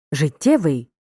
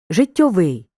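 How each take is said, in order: First: Життєвий with stress on the middle syllable ТТЄ; stress on the suffix. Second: Життєвий said as життьовий, stressed on final ВИЙ; stress on the ending. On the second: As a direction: make життєвий end in -ьовий, stressing ВИЙ. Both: Shown as a demonstration. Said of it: "Звертай увагу на наголос у слові".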